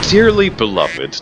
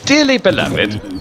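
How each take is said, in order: First: It is said in the speaker's normal accent. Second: It is said in a put-on British accent. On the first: The speaker calls it right. "when I wasn't using the accent" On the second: The speaker calls it wrong. "talk in a British accent"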